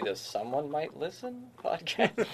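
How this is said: It is said as a question, rising.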